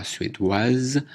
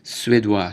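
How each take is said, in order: First: Suédoise ending in waz; suédoise with its last consonant heard; feminine pronunciation. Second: Suédois ending in wa, silent s; suédois finishing on the vowel; masculine pronunciation. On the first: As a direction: sound the final z in suédoise. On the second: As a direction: say suédois without the final consonant. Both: Shown as a demonstration. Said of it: "prononciation différente".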